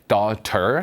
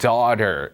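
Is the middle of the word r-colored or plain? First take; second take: plain; r-colored. First: The word is said plainly without an r-colored sound. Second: The word is said with a rolled, r-colored sound. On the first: "daughter 하셔도 충분합니다" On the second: "외국인들이 막 굴려서 발음하면"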